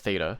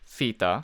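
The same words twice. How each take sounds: First: It is said in an American accent. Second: It is said in a non-American accent.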